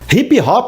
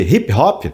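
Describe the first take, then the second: First: Extra vowels are added after the p sounds. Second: No extra vowels are added after the p sounds. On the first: "nós brasileiros pisamos mais na vogal" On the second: "em vez de"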